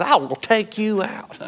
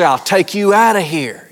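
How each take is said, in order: First: Slow, much softer gruff tough-guy threat; hammed-up movie hero growl; Clint Eastwood. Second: A touch of a tough-guy mother; Mom's threat. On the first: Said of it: "like Clint Eastwood". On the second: Retold or imitated. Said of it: "as Mom used to say".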